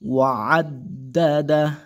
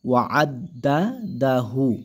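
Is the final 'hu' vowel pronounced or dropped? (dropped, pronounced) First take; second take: dropped; pronounced. First: The final vowel is dropped, ending the word short. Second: The word ends with a full 'hu' sound. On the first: The reading stops at the end of the verse. "এই হার উল্টা পেশটা সাকিন হয়ে যাবে" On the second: The reading continues past this word. "হাউলটা পেশ হু"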